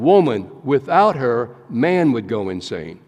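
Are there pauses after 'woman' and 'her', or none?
pauses. It pauses after 'woman' and after 'her'.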